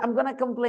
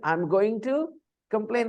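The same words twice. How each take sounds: First: 'Going to' is blended together into 'gonna'. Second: 'Going to' is said as two full words. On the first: "they say" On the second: "if they say"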